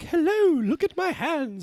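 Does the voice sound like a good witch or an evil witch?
good witch. It is said in a sweet good-witch voice.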